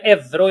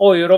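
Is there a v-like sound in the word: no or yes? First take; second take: yes; no. First: The word has a v-like sound in it. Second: The word has no v-like sound in it. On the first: "jag undrar vad är V?" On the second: "Euro vet jag något"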